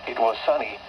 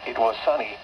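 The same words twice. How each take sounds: The two takes are said the same way.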